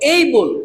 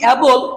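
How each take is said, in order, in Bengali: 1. এটি 'ay' স্বরধ্বনি দিয়ে শুরু হয়। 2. এটি খোলা 'a' স্বরধ্বনি দিয়ে শুরু হয়। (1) "কি বলবো? এই বল।" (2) "যদি এটাকে আমরা যদি বলি অ্যাবল, তাহলে হয়ে যাবেন আবল তাবল"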